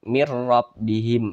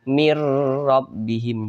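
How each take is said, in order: First: The sound before the r is kept short. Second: The sound before the r is held long. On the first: The speaker calls it right. "tapi dibaca pendek" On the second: The speaker calls it wrong. "Jangan ditahan seperti ini"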